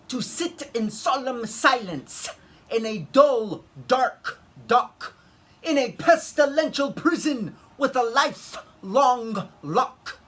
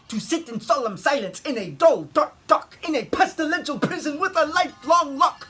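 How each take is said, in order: First: It is said at a moderate pace. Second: It is said as fast as possible.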